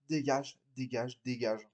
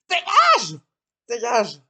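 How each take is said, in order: First: Much softer and lower, trailing off; quiet fed-up repetition; weary dismissal. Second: Loud angry yell; furious shout. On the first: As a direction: brush them off, tired. Acted quarrel, dismissing someone. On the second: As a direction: scream it much higher and louder. Acted quarrel, throwing someone out. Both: Acted.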